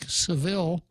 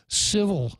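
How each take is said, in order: First: The name does not sound like 'civil'. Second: The name sounds like the word 'civil'. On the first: The speaker calls it right. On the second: The speaker calls it wrong.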